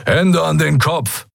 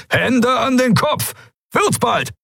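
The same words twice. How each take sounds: First: High, drawn-out command; demanding order. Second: Very high, piercing, impatient order; shrill command. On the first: Pirate to the arriving visitors, demanding surrender. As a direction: demand it slowly and sharply. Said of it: "forderte ein dunkelhäutiger Mensch". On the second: Pirate repeating the order to stalling visitors, shrill and impatient. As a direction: let the order ring shrilly through a hangar. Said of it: "Der Befehl gellte durch den Hangar". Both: A narrator's reading.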